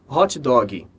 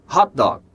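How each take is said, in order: First: It ends with an added vowel sound. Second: It ends cleanly on the final consonant. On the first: The speaker calls it wrong. "A gente coloca um som do I ali" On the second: The speaker calls it right. "quando na verdade a pronúncia é hot dog"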